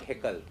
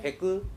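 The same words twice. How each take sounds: First: The last syllable sounds like 'kal'. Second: The last syllable sounds like 'kul'. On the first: The speaker calls it wrong. "not heckle. Kal nahi" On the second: The speaker calls it right.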